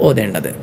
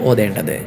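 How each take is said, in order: No difference in how they are said.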